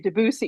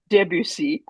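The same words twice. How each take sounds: First: The name is said in a British way. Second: The name is said in an American way.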